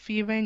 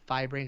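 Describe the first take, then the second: First: The first part sounds like 'fee'. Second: The first part sounds like 'fie'. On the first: "I think it's pronounced Fee-Brain" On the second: "You can also pronounce it Fi-Brain"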